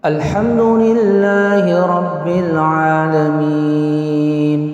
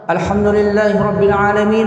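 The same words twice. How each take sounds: First: It is recited at a moderate speed. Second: It is recited quickly. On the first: This style suits leading the daily prayers. "Itu nggak cepat, nggak lambat" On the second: This style is a rapid reading. "Nanti kalau yang cepat namanya hadar"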